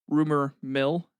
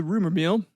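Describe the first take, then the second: First: "rumor mill" slow and careful, short i in "mill"; corrected mill. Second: "mill" accidentally said like "meal", with a long ee; misspoken mill. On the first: Shown as a demonstration. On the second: Real, not acted. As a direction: slip and say "rumor meal" with a long ee vowel. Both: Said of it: "not meal".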